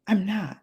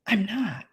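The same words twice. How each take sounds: The two takes are said the same way.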